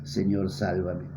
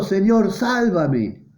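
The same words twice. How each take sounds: First: Much softer, slow hushed plea; quiet plea. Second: Mock cry for help. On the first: Acted. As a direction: breathe it as a humble prayer. Believers' plea to the Lord. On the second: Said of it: "gritó diciendo".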